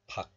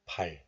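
First: The syllable ends in a k sound. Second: The syllable ends in an l sound. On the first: The syllable stands alone. "When this letter is pronounced alone, it is pronounced as 박" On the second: Another letter follows the syllable. "when this letter is used with other letter, then the hidden 리을 sound gains its value. So it is pronounced as 발"

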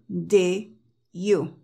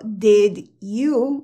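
First: The final D is dropped entirely. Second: The final D is pronounced strongly. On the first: "no se escucha la D" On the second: "yo ahí pronuncié la D, más, se siente como fuerte"

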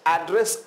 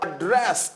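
First: The stress is on the first syllable. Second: The stress is on the second syllable. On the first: "जब आपको address बोलना है तो stress यहां देना है" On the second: "अगर डी पर आप जोड़ देंगे तो इसका अर्थ हो जाएगा संबोधित करना"

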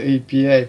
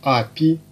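First: It is spelled out letter by letter. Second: It is read out as one word. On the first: The speaker calls it right. "вместо API" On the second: The speaker calls it wrong. "Когда вы говорите API"

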